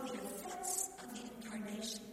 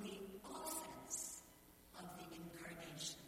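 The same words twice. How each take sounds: First: "offense" said as of-FENSE, weight on the second syllable; stress on the second syllable. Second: "offense" said as OF-fense, weight on the first syllable, lower and softer; stress on the first syllable. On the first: Preacher contrasting pronunciations, stressing of-FENSE. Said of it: "emphasis on the second syllable". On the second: Preacher contrasting pronunciations, stressing OF-fense. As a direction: lean on the OF in "offense". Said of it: "emphasis on the first". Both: Shown as a demonstration.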